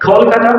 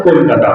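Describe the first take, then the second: First: কলকাতা opening on a breathy KH; English aspirated K. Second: কলকাতা with a plain, unaspirated K; Bengali-style hard K. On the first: Teacher showing how English speakers say it, aspirated KH in কলকাতা. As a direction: puff the first K of কলকাতা into KH. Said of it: "তাহলে কিভাবে বলবে?". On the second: Teacher showing students their habitual pronunciation, Bengali-style plain K in কলকাতা. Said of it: "যেগুলোকে ক দিয়ে উচ্চারণ করো". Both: Shown as a demonstration.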